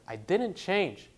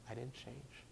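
First: It is said loudly and forcefully. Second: It is said softly and quietly.

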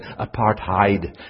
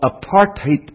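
First: The last syllable sounds like 'hide'. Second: The last syllable sounds like 'hate'. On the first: The speaker calls it wrong. "in the United States most people say apartheid, thinking it's German" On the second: The speaker calls it right. "That's the proper way to pronounce the word"

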